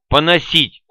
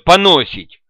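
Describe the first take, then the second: First: The stress falls on its usual syllable. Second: The stress is moved to another syllable. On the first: It means to speak ill of others. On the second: It hints at a crude bodily meaning.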